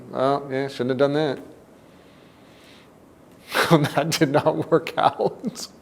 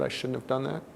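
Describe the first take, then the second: First: Easy-going, amused take on shouldn't have done that; light and laughing. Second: Quiet, sunken regret over I shouldn't have done that; heavy self-blame. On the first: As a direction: shrug it off with a laugh, slow. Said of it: "We could say those same words in different ways". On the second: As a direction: say it as a crushing self-rejection. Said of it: "the size of the emotion could be huge". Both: Shown as a demonstration.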